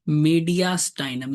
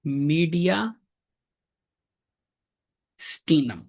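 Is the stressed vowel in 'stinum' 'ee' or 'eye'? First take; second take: eye; ee. First: The middle vowel sounds like 'eye'. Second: The middle vowel sounds like 'ee'.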